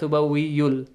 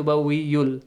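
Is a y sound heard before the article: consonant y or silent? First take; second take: consonant; consonant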